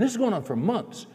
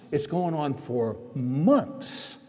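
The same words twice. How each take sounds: First: Said in the usual way. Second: Stretched very slow, dragging MONTHS; drawn-out emphasis. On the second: Retold or imitated. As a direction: draw out every word to show how endless it felt. Same words stretched out for emphasis.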